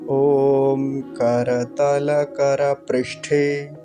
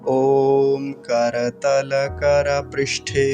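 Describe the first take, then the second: First: It is said slowly, broken into parts. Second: It is said smoothly in one flow. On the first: "विग्रह करके धीरे धीरे" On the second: "प्रवाह से, flow में"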